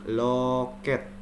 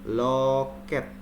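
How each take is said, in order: The two takes are said the same way.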